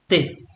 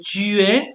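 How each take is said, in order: First: The vowel of tu is dropped. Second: The vowel of tu is fully pronounced. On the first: This is casual, familiar speech. "you drop the u" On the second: This is the standard form. "instead of say tu es"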